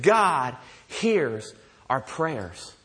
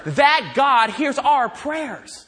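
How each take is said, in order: First: Very slow, low, weighty statement; slow and deliberate, pitched down; letting it sink in. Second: "That" punched high, then "hears our prayers" stretched out; slow, high preaching emphasis on "That God"; emphatic climax. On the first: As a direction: space out "God hears our prayers" so each word lands. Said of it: "Let that sink in a little bit". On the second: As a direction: drive home "That God" with raised pitch. Climax of list of God's greatness. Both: Real, not acted.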